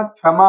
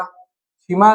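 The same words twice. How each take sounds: First: क्षमा said "chhama", with short a; correct form. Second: क्षमा said "chhima", with i; wrong form. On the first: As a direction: keep an a in क्षमा: "chha-ma". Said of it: "क्षमा होगा". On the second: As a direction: put a short i in क्षमा: "chhi-ma". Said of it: "क्षमा नहीं होगा". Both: Shown as a demonstration.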